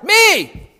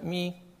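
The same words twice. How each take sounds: First: The word is shouted loudly. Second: The word is said quietly and weakly. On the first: The speaker calls it right. "we're going to shout it" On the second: The speaker calls it wrong. "Some of you were just like"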